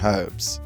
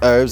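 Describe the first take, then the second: First: The word starts with an H sound. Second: The word starts without an H sound. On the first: This is the British pronunciation. "you guys pronounce the H" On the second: This is the American pronunciation. "we don't pronounce the H"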